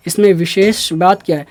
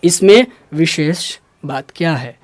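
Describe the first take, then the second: First: Said in the usual way. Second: इसमें विशेष बात क्या है in separate chunks; measured, low teaching delivery of wishes; slow and clear. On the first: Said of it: "इस पर थोड़ा सा रुक जाइए". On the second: Shown as a demonstration. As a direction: pause round wishes, saying it slowly. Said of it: "हल्का धीरे धीरे होकर बोलिए".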